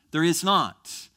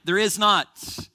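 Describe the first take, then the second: First: There is not, with is stressed and falling; closing restatement; firm repeat. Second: Loud, slow There is not; firm preacher's denial; emphatic no. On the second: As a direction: slam the door on it. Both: Shown as a demonstration.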